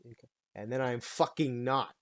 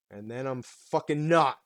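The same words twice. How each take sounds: First: Said in the usual way. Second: Sudden extreme. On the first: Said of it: "super patient and calm". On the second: Shown as a demonstration. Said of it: "they're very extreme".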